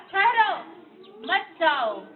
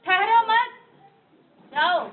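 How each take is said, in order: First: Loud ठहरो on its own, then मत जाओ together; pause after ठहरो. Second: ठहरो मत joined, high and very loud, pause, then जाओ; pause after मत. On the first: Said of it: "पहले में क्या बोला". (ज़ोर से ठहरो, रुककर मत जाओ) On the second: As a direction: hold the break until after मत, then say जाओ alone. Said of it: "दूसरे में क्या बोला". (ज़ोर से ठहरो मत, फिर रुककर जाओ) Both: Shown as a demonstration.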